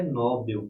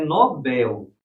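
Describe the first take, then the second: First: "Nobel" with first-syllable stress, NÓ-bel; "Nobel" misstressed on NO; wrong stress, NÓ-bel. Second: "Nobel" as no-BÉL, last syllable drawn out; slow corrective no-BÉÉL for "Nobel"; stress on BEL. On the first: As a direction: say "Nobel" as the common error NÓ-bel. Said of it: "não é Nobel". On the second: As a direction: stretch and stress the end of "Nobel". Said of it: "Porque é Nobel". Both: Shown as a demonstration.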